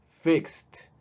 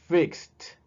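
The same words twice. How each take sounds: No difference in how they are said.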